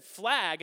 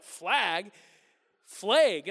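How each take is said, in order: First: "Flag" said with an open flat a, as in cat; "Flag" with a short open flat vowel; own way of saying. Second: "Flag?" with a long ay vowel, like flayg, in a mocking Wisconsin accent; Wisconsin way of saying. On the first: Retold or imitated. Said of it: "And I said". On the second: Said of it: "And they're like".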